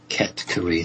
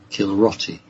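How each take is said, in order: First: The name is pronounced as Ket-Kuri. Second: The name is pronounced as Kilroti. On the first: The speaker calls it right. "accurately pronounced as Ket-Kuri" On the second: The speaker calls it wrong. "they can't say Ket-Kuri, so they pronounce it as Kilroti"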